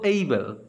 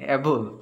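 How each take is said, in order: First: The first vowel sounds like 'ay' in day. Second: The first vowel sounds like 'a' in cat. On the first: The speaker calls it right. "আমরা এখন থেকে বলবো able" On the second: The speaker calls it wrong. "অ্যাবল না বলে"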